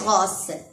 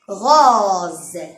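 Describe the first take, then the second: First: The middle consonant is a hissing s sound. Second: The middle consonant is a buzzing z sound. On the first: The speaker calls it wrong. "On va pas dire rose" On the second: The speaker calls it right. "On va dire rose"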